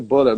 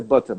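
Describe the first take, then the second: First: Butter with an L-like sound replacing the T; wrong pronunciation. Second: Butter with a clear T; British T. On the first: Teacher showing a nonexistent word, "butter" as "buller". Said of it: "não existe". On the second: Teacher contrasting with the wrong version, "butter" with T. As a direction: sound the T fully in "butter". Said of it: "eu falo com T". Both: Shown as a demonstration.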